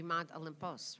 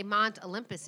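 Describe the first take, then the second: First: "Olympos" ending in a long "pohs"; Greek Olympos. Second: Said in the usual way. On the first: Shown as a demonstration. Host shows guest the Greek name, "Olympos" ending in pohs. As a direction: say "Olympos" the Greek way, last syllable "pos", softer. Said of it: "If we're gonna do the Greek". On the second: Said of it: "if we say Mont Olympus".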